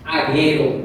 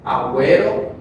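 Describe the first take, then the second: First: The u after the g is silent. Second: The u after the g is pronounced. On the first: The speaker calls it wrong. "no decimos eh, aguero" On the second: The speaker calls it right. "a menos que lleve la carita sonriente, como en agüero"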